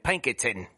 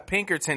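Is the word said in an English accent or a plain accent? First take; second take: English; plain. First: It is said in an English accent. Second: It is said in the speaker's normal accent.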